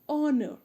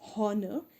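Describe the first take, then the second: First: The word begins with a vowel, h silent. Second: The word begins with an audible h sound. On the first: The speaker calls it right. "it's honor. So H is silent here" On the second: The speaker calls it wrong. "it's not honor"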